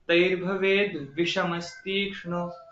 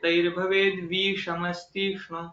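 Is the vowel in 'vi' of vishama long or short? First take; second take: short; long. First: The vowel in 'vi' is short. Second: The vowel in 'vi' is long. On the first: The speaker calls it right. "उसका सही उच्चार क्या है?" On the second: The speaker calls it wrong. "तो ये गलत उच्चार है।"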